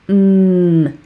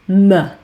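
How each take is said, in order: First: A pure consonant sound with no vowel after. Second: The consonant is followed by an uh vowel. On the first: The speaker calls it right. "it makes a mm sound" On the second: The speaker calls it wrong. "often I hear that pronounced as m"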